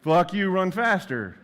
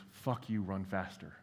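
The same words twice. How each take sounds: First: Much higher, much louder, slow barked order; drill sergeant yell. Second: Softly voiced taunt close to the ear; hushed, private dare to run faster; retold whisper. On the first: Retold or imitated. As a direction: yell it like a first sergeant driving a runner. Remembered first sergeant drill command. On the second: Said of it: "He whispers in my ear".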